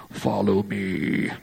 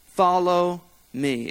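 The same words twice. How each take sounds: First: Low, slow, croaky put-on Jesus; drawn-out mock-solemn Jesus, deep and croaky. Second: Said in the usual way. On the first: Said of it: "in your best Jesus voice".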